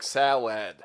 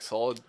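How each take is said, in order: First: The word is said slowly with exaggerated care. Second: The word is said quickly in a casual way. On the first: "I have to say it like I'm SpongeBob in that one episode" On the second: "usually when I'm just like talking, it'll be like"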